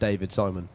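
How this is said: The name is said with an English pronunciation. "it would be really funny if you just pronounce it David Simon"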